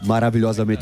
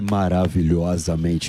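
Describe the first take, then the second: First: It is said in his normal voice. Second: It is said in a put-on deep voice.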